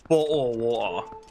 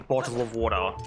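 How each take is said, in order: First: It is said in an imitated British accent. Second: It is said in the speaker's ordinary accent.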